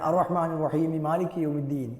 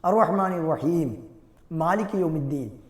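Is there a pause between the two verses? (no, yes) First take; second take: no; yes. First: The verses run together without a pause. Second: There is a pause after each verse. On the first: "ഇങ്ങനെയൊക്കെ കൂട്ടി ഓതുന്നതാണ്" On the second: "ഇങ്ങനെ ഓരോ ആയത്തുകളും വഖഫ് ചെയ്ത് വഖഫ് ചെയ്ത് ഉച്ചരിക്കലാണ്"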